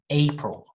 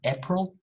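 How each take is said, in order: First: The first syllable sounds like 'ape'. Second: The first syllable does not sound like 'ape'. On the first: The speaker calls it right. "Ape. ... but April" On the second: The speaker calls it wrong. "Not April"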